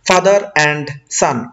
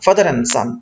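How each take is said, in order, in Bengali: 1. 'and' শব্দের শেষের d উচ্চারণ করা হয়। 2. 'and' শব্দের শেষের d বাদ দেওয়া হয়। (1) "এইভাবে বলবো না" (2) "এখন দ্রুত করতে গেলে এই অ্যান্ডের ডটা অটোমেটিক্যালি এখান থেকে রিমুভ হয়ে যায়"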